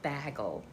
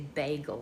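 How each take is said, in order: First: The first syllable sounds like 'bag'. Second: The first syllable sounds like 'bay'. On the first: The speaker calls it wrong. "not bagel" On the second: The speaker calls it right. "I prefer bay. Bagel. Even when you got an accent, you say bagel"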